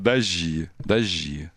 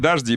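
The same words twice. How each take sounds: First: The middle consonants merge into one sound. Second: The middle consonants are pronounced as separate sounds. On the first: The speaker is a native Muscovite. "А москвичи говорят «дожди»" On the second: The speaker is not a native Muscovite. "они говорят «дожди», приезжие говорят"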